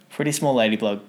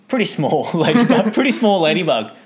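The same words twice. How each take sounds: First: Said in the usual way. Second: Higher and louder, laughing. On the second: Real, not acted. Telling of the tiny ladybug, laughing loudly. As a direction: laugh through the words.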